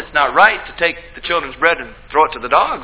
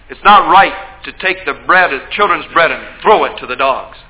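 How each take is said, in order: First: It is said in a light, teasing tone. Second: It is said in a harsh, stern tone. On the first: The speaker invites the listener to respond. The speaker calls it right. "what if Jesus was teasing? ... Something rhetorical like" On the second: The speaker is being cruel and dismissive. The speaker calls it wrong. "we read it in a real harsh tone of voice"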